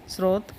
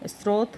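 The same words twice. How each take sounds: The two takes are said the same way.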